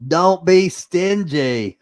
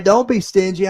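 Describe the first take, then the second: First: Don't be stingy, drawn out slowly, higher and louder; slow emphatic plea. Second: Don't be stingy, punched higher and louder at normal pace; louder repeat. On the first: Host urges viewers to share the stream, slow and insistent. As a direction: lean on each word slowly to press the point. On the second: Host repeats his demand to viewers, louder and higher. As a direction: snap it out as a firm repeat. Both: Real, not acted.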